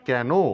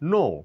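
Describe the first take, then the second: First: The K sound is pronounced. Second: The K sound is silent. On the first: The speaker calls it wrong. "এটা কেন না বলে" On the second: The speaker calls it right. "বলবো নো, কে এখানে silent"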